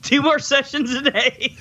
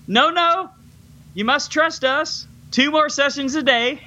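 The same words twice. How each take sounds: First: Laughing repeat. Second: Mock doctor refusing. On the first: Retold or imitated. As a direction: say it through a laugh. Repeats quote while laughing. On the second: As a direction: deny him gently but firmly, hammed up. Doctor refuses Alex, retold.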